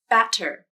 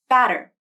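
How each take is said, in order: First: The T is a full, crisp stop. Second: The T is a quick tongue flap. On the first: "without the flap" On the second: "with the flap"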